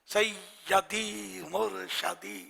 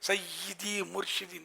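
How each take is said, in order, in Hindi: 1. murshidi में 'sh' के बाद का स्वर 'a' है। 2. murshidi में 'sh' के बाद का स्वर 'i' है। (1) "दोनों तलफुज गलत है।" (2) "सही लफ्ज मुर्शिद है।"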